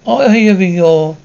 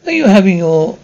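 The two takes are said the same way.

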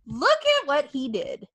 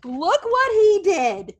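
First: Said in the usual way. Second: High, slow, drawn-out "Look what he did"; emphatic. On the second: Shown as a demonstration. Podcaster hyping a wrestler, slow emphatic "what". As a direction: stretch out "what" in disbelief.

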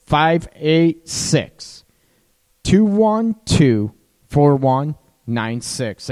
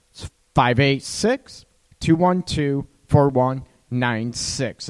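First: Slow, deliberate, each digit set apart; slow dictation. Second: Said in the usual way. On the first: Shown as a demonstration. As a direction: read the number out slowly so they can write it down. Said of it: "write this down".

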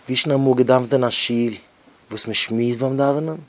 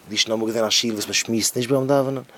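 First: Raised, emphatic preacher call; louder preaching take; louder declaiming. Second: Said in the usual way. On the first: Acted. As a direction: lean into the rhetorical question. Repeats the line, stronger.

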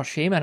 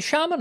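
First: Shaman with a long "ay", SHAY-mun; first vowel of Shaman as in "shame"; SHAY-man pronunciation. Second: Shaman with an open "ah", SHAH-mun; first vowel of Shaman as in "father"; SHAH-man pronunciation. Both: Shown as a demonstration. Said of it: "is it Shaman or Shaman".

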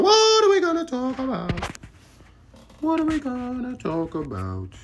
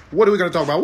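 First: Very high sing-song question; high falsetto whine. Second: Said in the usual way. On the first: Pretend. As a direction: ask it in a silly squeaky voice. Falsetto repeats.

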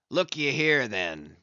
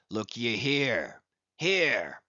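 First: A mild narrated cry, lightly raised; a touch of Ahab crying out; passionate cry. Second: Hushed, slow, breathy whisper. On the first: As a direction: call him over with urgency, not full force. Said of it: "cried Ahab, passionately advancing". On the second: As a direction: draw him close and whisper it. Ahab shows his scarred brow. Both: A narrator's reading.

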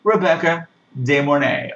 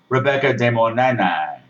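First: Said in the usual way. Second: "Rebecca De Mornay" drawn out, nasal vowels, "Mornay" stretched to "Mo-nay-nay"; slow comic take on "Rebecca De Mornay"; playful mispronunciation. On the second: Shown as a demonstration. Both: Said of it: "or as I like to call her".

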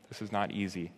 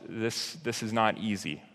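First: Quiet repeat. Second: Said in the usual way. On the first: Real, not acted. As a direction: repeat "not easy" much softer, sinking.

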